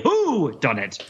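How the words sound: The stress is on "who".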